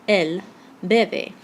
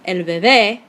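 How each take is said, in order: First: Bebe with the first syllable stressed; bebe, punched at the front. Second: Bebé, stressed at the end; stress on final syllable. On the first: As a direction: lean on the opening syllable of bebe. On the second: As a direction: land hard on the last syllable of bebé. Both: Shown as a demonstration. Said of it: "the difference here that a written accent mark makes".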